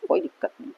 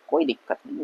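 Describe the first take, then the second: First: Said in the usual way. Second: Whispered under the breath; a soft whispered aside. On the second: Shown as a demonstration. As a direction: breathe it out without voice. Repeats phrase, then whispers it.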